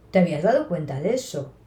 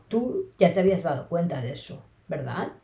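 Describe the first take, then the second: First: "¿te habías dado cuenta de eso?" as a brisk question; question tune. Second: Said in the usual way. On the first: Shown as a demonstration. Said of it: "para preguntar digo". (entonación interrogativa en "¿te habías dado cuenta de eso?") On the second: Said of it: "utilizo un tono más plano".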